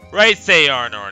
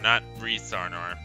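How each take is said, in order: First: The first name has the vowel of 'rice'. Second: The first name has the vowel of 'reese'. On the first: The speaker calls it right. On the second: The speaker calls it wrong. "I've been pronouncing it the wrong the whole time"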